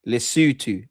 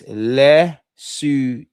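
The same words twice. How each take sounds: First: Said in the usual way. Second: Lesotho broken slowly into le, soo, too; slow, separated syllables on "Lesotho"; syllable-by-syllable pronunciation. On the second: Shown as a demonstration. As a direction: sound out "Lesotho" one drawn-out syllable at a time. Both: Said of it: "No, it's Lesotho".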